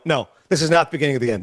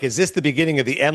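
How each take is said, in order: First: "this is not the beginning of the end" as a quick, falling statement; brisk, lower "No", closing firmly on a falling "end"; firm denial. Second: "Is this the beginning of the end?" asked lower, rising at the end; phrased as question. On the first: Fans answering before the question lands, "No, this is not" as firm denial. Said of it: "even phrasing as a question". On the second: Doubters asking about the dynasty, "Is this the beginning of the end?" as a rising question. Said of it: "phrasing as a question". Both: Retold or imitated.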